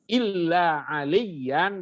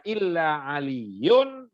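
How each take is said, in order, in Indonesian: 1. Nama itu berakhir dengan bunyi 'an'. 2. Nama itu berakhir dengan bunyi 'un'. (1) "dengan alasan dia mustasna" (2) "dengan alasan dia badal"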